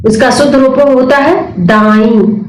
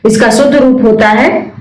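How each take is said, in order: First: Slowed down, spelling out the correct answer दाई; slow emphatic answer. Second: Said in the usual way. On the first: Shown as a demonstration. Teacher slowly stressing the correct form दाई for students.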